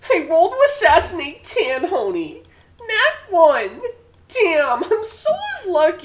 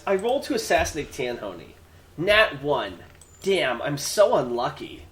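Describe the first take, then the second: First: It is read in a put-on, squeaky character voice. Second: It is read in a natural speaking voice.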